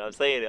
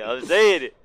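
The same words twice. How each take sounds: First: Said in the usual way. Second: Louder insisting repeat. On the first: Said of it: "I'm telling you, man". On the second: Shown as a demonstration. Insisting louder to friends mocking his word. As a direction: repeat it louder, pressing the point.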